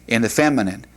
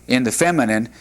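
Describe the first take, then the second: The two takes are said the same way.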